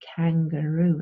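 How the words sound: It is said with English vowels and stress. The speaker calls it right. "when you speak English, you have to say kangaroo"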